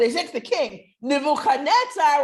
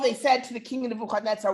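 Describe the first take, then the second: First: There is a pause after king before Nebuchadnezzar. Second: The phrase runs on without a pause after king. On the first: They bluntly address the king by his bare name. The speaker calls it right. "That's even more chutzpahdik" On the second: They are speaking to King Nebuchadnezzar. The speaker calls it wrong. "they put the pauses so it shouldn't be"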